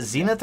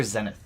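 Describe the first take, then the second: First: Zenith said ZEE-nith; first syllable of Zenith rhymes with "see"; long E in Zenith. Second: Zenith said ZEN-ith; first syllable of Zenith rhymes with "ten"; short E in Zenith. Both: Shown as a demonstration. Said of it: "Is it Zenith or Zenith?".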